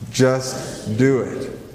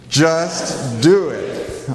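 First: It is said at normal volume. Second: It is said louder, with conviction.

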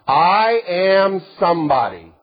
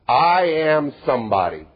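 First: The phrase is said loudly, with strong force. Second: The phrase is said quietly, without much force. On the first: The speaker calls it right. "you need to say it loud" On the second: The speaker calls it wrong. "No, that was"

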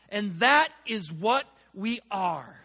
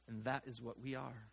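First: It is read with lively, exclamatory energy. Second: It is read in a plain, flat way. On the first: The speaker calls it right. "I should read it like this" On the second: The speaker calls it wrong. "I'm reading that all wrong"

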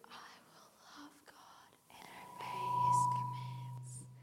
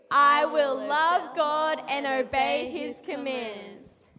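First: It is said quietly. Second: It is said loudly.

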